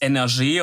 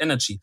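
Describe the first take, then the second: First: The word has a French pronunciation. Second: The word has an English pronunciation. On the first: "wenn man das Französisch ausspricht, dann ist es Energie" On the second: "alle Moderatoren auf dem Sender und so sagen ja Energy"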